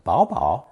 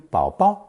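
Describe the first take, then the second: First: The word is read with its normal tones. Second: The word is read with changed, cuter-sounding tones. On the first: "can be read normally as" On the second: "changed to bao bao, with the last one sounding the cutest"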